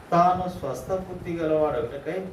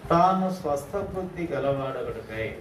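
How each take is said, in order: Both takes have the same delivery.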